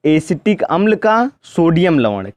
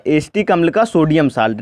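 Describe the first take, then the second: First: sodium लवण spoken slowly and clearly with weight on का; धीरे और ज़ोर देकर "एसिटिक अम्ल का सोडियम लवण"; slow and stressed. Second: Said in the usual way. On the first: Shown as a demonstration. (धीमे, साफ़ शब्दों में)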